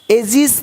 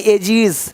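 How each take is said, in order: First: "एजिस" said as ay-jis, with s; "एजिस" with short i and final s; wrong s ending. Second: "एजिस" said as ay-jeez, with z; z ending. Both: Shown as a demonstration. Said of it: "एजिस नहीं".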